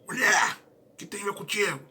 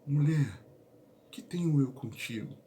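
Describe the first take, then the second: First: It is said in a harsh, disrespectful tone. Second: It is said in a warm, respectful tone. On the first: The woman is being brushed off rudely. The speaker calls it wrong. "Não foi" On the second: The woman is being addressed with honor. The speaker calls it right. "Era algo respeitoso. ... carinhoso, de honra"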